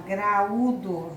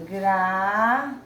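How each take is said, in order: First: Said in the usual way. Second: Gra-u-do slowly split into three drawn-out syllables; syllables separated. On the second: Shown as a demonstration. Teacher shows pupils the same hiatus, Gra-u-do syllable by syllable. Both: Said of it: "Mesma coisa se eu falar".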